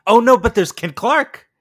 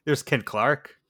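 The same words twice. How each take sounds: First: Loud, high and excited, rising on no; excited shout. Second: Said in the usual way. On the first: Real, not acted. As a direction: blurt it out, thrilled.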